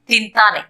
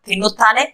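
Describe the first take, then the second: First: The word is said in a shortened form. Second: The word is said in its full form. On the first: This is the everyday spoken form. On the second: This is the written, formal form.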